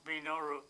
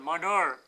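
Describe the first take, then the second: First: The name is said in full as Minoru. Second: The name is shortened and said as Manur. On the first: This is the name's proper form. The speaker calls it right. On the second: This is how people who cannot pronounce it say it. The speaker calls it wrong.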